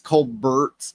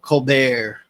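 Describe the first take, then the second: First: The name is pronounced the plain English way. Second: The name is pronounced the French way. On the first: "it it's it's Colbert" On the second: "trying to pronounce it like French"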